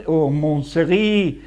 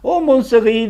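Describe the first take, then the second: First: "mon Seri" said slowly, low and tentative; slow trial. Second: "Oh, mon Seri" in a mock French accent, higher and louder; French flourish. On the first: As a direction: try out "mon Seri" carefully, drawn out. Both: Shown as a demonstration. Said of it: "that's a French name".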